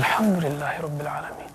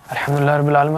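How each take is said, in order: First: It is said slowly with heartfelt feeling. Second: It is rattled off hurriedly without feeling.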